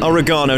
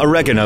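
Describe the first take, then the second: First: It is said with a British pronunciation. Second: It is said with an American pronunciation. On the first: The speaker calls it right. "goodness you call it oregano" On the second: The speaker calls it wrong. "not oregano, like the Americans do"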